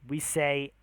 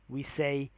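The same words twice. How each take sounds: Both takes have the same delivery.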